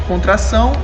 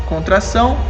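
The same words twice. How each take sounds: Both takes have the same delivery.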